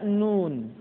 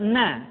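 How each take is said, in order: First: It is said with a closing n sound. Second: It is said as a short open syllable. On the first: The speaker calls it right. "tapi dibaca nun" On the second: The speaker calls it wrong. "nun tidak dibaca na"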